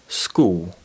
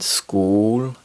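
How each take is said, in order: First: The final L sounds like a W. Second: The final L is a dark L. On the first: "sounds like school" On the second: "school sounds like"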